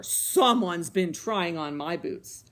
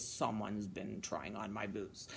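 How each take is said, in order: First: Loud, slow Papa Bear; booming bear voice. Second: Very low, soft bear demo; big bear voice. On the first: A narrator's reading. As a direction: boom it out slowly. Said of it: "he boomed in his big bear voice". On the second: Shown as a demonstration. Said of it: "Can you make a big bear voice?".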